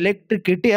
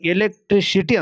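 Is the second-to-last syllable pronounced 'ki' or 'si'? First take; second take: ki; si. First: The syllable before the last is pronounced 'ki'. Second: The syllable before the last is pronounced 'si'. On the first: The speaker calls it wrong. "ಎಲೆಕ್ಟ್ರಿಕಿಟಿ ಅಲ್ಲದ" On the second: The speaker calls it right. "ಎಲೆಕ್ಟ್ರಿಸಿಟಿ ಅಂತ"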